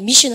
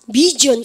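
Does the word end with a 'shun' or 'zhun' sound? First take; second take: shun; zhun. First: The ending is pronounced with a voiceless 'sh' sound. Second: The ending is pronounced with a voiced 'zh' sound. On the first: The speaker calls it right. "미션 합니까? 미션" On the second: The speaker calls it wrong. "미전 합니까?"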